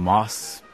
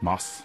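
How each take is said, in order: First: The final S is drawn out, sounding eager. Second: The final S is short and plain. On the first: "Mit Vorfreude auf den kommenden Genuss. Mit ein bisschen lang gezogenem, ausklingendem S" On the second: "Mit kurzem, klarem, dunklem A"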